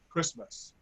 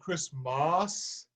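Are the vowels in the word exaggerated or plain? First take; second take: plain; exaggerated. First: It is pronounced in a plain everyday way. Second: Its vowels are altered to sound more formal. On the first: It sounds like a normal popular song. The speaker calls it right. "just like you say it" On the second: The vowels are made prettier for choral style. The speaker calls it wrong. "I don't want to make it Christmas"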